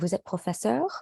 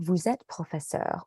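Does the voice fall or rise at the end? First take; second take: rise; fall. First: The pitch rises at the end. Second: The pitch falls at the end. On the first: It is a question. "Or a question, ... a question intonation" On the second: It is a plain statement. "Not a question, ... the down confirmation intonation"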